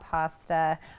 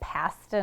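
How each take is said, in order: First: The word is said with an American pronunciation. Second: The word is said with a Canadian pronunciation. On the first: This is how others say it. The speaker calls it wrong. "not pasta" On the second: This is how the speaker says it. The speaker calls it right. "I make pasta"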